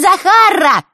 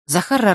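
First: Put-on "Захарра" squeaked high and loud, girly; squeaky voice. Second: Said in the usual way. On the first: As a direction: squeak the name "Захарра" like a silly girl. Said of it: "начал он песклявым голосом". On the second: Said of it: "песклявым голосом".

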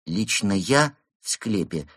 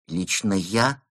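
First: Slow, halting statement; honest admission. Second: Hesitant question, rising at the end; timid query. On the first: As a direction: begin a reluctant confession, word by word. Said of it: "честно признался пингвин". (медленное честное признание) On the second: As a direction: check meekly, as if hoping otherwise. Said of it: "робко уточнил он". (робкое уточнение) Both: A narrator's reading.

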